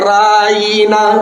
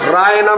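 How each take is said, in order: First: The middle vowel is drawn out long. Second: The middle vowel is short. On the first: An insult calling him a goat herder. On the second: A request to look at and attend to us.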